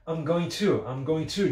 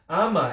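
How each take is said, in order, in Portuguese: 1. Cada palavra é pronunciada completa e separadamente. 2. Ela é comprimida rapidamente em um grupo curto de sílabas.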